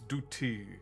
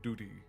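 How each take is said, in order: First: The middle consonant is a clear T sound. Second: The middle consonant sounds like a D. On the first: The speaker calls it right. "as in a T" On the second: The speaker calls it wrong. "more of a D"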